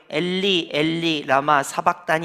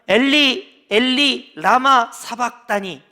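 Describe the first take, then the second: First: It is said clearly and crisply, with full breath. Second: It is shouted out loudly. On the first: "여러분처럼 또록또록하게" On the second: "이렇게 외치셨을까"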